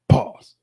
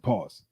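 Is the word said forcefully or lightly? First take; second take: forcefully; lightly. First: It is said strongly, with more force. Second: It is said lightly, with little force. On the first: The speaker calls it right. "that ain't strong enough" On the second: The speaker calls it wrong. "I said it light"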